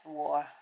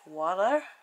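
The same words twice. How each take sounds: First: The t is clearly and fully pronounced. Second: The t sounds American-style, soft and d-like. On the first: This is the careful, proper way to say it. "I try to say it properly" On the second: This is how Americans say it. "Now in America, I think you say... Do you say water like that?"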